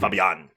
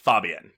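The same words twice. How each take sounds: First: The stress is on the second syllable. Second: The stress is on the first syllable. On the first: The speaker calls it right. "accent's on the second A" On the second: The speaker calls it wrong. "you're putting the accent on the first A"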